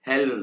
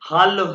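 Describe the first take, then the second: First: The first vowel is an 'eh' sound. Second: The first vowel is an open 'ah' sound. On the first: The speaker calls it wrong. "हेलो नहीं है।" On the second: The speaker calls it right. "ये हालो है"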